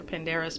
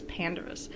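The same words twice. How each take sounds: First: The stress falls on a later syllable. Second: The stress falls on the first syllable. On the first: The speaker calls it wrong. "I was pronouncing it wrong" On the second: The speaker calls it right. "you're supposed to emphasize that first syllable"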